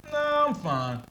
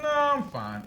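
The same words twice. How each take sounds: First: Pitched much higher, firm and unthreatening; a polite but final no, voice jumping up; high firm brush-off. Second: Higher, firm polite refusal; unthreatening but firm. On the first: Declining a salesman's help, higher and firm. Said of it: "I don't know why my tone goes there". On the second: Answering like his father would, higher and firm. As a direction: shut it down politely but finally. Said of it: "unthreatening but firm". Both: Retold or imitated.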